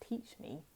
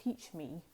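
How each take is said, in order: First: Soft unvoiced whisper, hushed and eager; whispered plea. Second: Said in the usual way. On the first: Admirers begging to learn the charm, whispered. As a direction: breathe it like a secret request.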